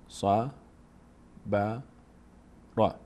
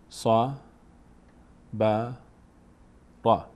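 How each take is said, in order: Both takes have the same delivery.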